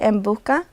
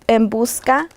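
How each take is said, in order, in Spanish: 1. La s se omite por completo. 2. La s se pronuncia claramente. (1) "que pierde la S" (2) "debe de decir en busca"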